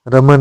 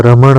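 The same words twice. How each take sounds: First: रमण ending in a plain n; wrong nasal. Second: रमण ending in retroflex ण; correct nasal. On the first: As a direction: say रमण as "raman". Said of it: "नहीं होता है". (रमण में न की ध्वनि) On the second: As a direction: curl the tongue ending रमण. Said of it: "होता है". (रमण में शुद्ध ण) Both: Shown as a demonstration.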